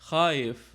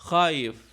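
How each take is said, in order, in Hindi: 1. बीच की आवाज़ें जल्दी-जल्दी आपस में मिला दी जाती हैं। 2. बीच की आवाज़ें जल्दी-जल्दी आपस में मिला दी जाती हैं।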